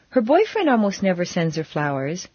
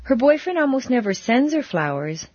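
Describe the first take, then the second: First: The stress falls on the word boyfriend. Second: The stress falls on the word sends. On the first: Someone other than the boyfriend sends flowers. "but her sisters always do" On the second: Flowers are given in another way. "but he planted a lot in her garden"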